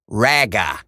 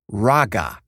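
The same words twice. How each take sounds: First: The first vowel is a flat eh sound. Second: The first vowel is an open ah sound. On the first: The speaker calls it wrong. "not raga, okay? Not eh, eh" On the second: The speaker calls it right. "It's pronounced raga"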